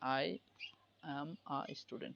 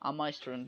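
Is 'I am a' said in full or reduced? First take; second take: full; reduced. First: Each word of I am a is said separately. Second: I am is shortened into one quick syllable. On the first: This is the basic way learners are taught. "এখন যেভাবে হচ্ছে আমরা ওটাভাবে শিখি।" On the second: This is an advanced, native-like way of speaking. "আরো সহজ করে আই এম কি আরো শর্ট ফর্ম বলে আম"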